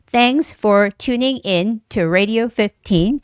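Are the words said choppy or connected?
choppy. Each word is stressed with small stops between words. The speaker calls it wrong. "Instead of saying"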